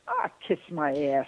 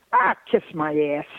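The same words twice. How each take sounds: First: Mild Southern-Detroit aunt impression; Aunt Irma Dee's accent. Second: Mock Southern-Detroit aunt, dismissive; lightly voiced Southern-Detroit aunt, kiss-off; Aunt Irma Dee's accent. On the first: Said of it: "I'd say". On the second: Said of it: "she had this accent that was inimitable".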